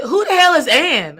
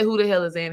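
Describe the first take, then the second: First: Loud, high demand; shocked wife yelling the question; indignant outburst. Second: Said in the usual way. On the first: Retold or imitated. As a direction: burst out with jealous disbelief. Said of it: "And I said". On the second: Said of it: "And I say".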